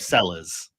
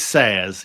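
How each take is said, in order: First: The double L is said as an English L. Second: The double L is said the Spanish way. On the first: The speaker calls it wrong. "amount of people that'll call him Sellers" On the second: The speaker calls it right. "and it is Sayers. You're right"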